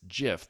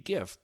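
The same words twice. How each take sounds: First: The word starts with a soft G sound. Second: The word starts with a hard G sound. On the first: The speaker calls it wrong. "founder has said after the fact it's GIF" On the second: The speaker calls it right. "graphics is a hard G GIF"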